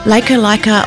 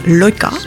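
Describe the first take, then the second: First: The first vowel sounds like 'eye'. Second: The first vowel sounds like 'oy'. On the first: The speaker calls it wrong. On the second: The speaker calls it right.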